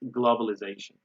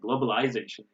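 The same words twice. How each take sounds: First: It is said with an American accent. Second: It is said with a British accent.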